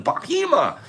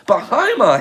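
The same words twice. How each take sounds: First: Bahima with a long "ee" in the middle; HEE in Bahima. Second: Bahima with a long "eye" in the middle; HIGH in Bahima. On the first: Streamer trying a viewer's name, "Bahima" as ba-HEE-ma. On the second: Streamer retrying a viewer's name, "Bahima" as ba-HIGH-ma. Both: Real, not acted. Tries a name two ways.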